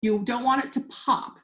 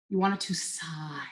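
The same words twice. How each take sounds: First: Said in the usual way. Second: Soft, airy whisper like a sigh. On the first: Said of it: "they actually said, "You don't want it to pop". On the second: Retold or imitated. Wine teacher quoting how a bottle should open, whispered sigh. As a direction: let the words sigh out quietly.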